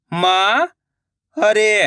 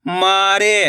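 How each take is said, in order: First: मारे drawn out slowly, syllable by syllable; slow syllable split. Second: Said in the usual way. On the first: Shown as a demonstration. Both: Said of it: "मैं किस तरीके से".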